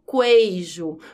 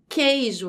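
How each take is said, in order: First: A 'u' sound is heard after the k. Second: No 'u' sound is heard after the k. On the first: The speaker calls it wrong. "não falo queijo" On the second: The speaker calls it right. "Eu também não pronuncio esse U. Então fica queijo"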